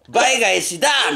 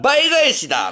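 First: The final syllable だ is said with extra force. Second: The final syllable だ is said without extra force. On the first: The speaker calls it wrong. "イントネーションが違うんですよ。倍返しだみたいになってたから。" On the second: The speaker calls it right. "倍返しだなんすよ。"

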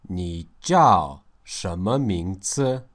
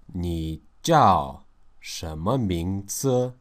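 The two takes are said the same way.

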